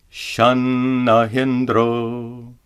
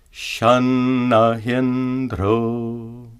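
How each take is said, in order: First: Shanahindro chanted with the e kept short; wrong meter. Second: Shanahindro chanted with the e held long; correct meter. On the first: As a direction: chant it ignoring the long syllable. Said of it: "If we ignore this rule, we would chant". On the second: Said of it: "following this rule properly, we chant instead". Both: Shown as a demonstration.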